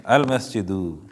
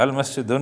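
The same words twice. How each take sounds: First: المسجدو with the right final -du and no nun; المسجدو, ending firmly on -du; the correct reading المسجدو with a clean -du; correct form demo. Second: المسجدن said with a wrong final -dun; mock mistake: المسجدن ending in nun; المسجدن with the -dun ending shown as an error; wrong form demo. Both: Shown as a demonstration. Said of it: "المسجدن نہیں کہنا".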